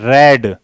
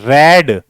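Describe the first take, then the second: Both takes have the same delivery.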